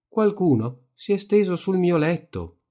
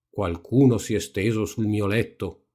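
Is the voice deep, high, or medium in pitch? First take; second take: medium; deep. First: The voice is medium in depth. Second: The voice is big and deep. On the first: The middle-sized character is speaking. "disse con la sua voce grossa alla metà" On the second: The biggest character is speaking. "disse con la sua voce grossa grossa"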